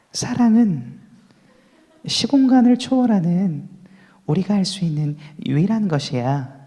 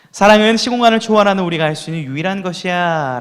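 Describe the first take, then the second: First: The line is said in an exaggerated put-on voice. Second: The line is said in a natural, sincere voice. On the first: The speaker calls it wrong. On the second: The speaker calls it right.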